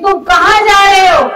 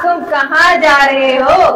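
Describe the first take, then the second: First: It sounds like a warning, trying to stop someone. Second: It sounds knowing, as if already aware.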